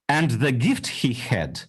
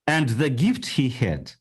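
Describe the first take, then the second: No difference in how they are said.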